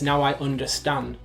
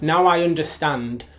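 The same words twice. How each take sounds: First: The D in understand is dropped. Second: The D in understand is clearly pronounced. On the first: "He says" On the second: "He doesn't say that"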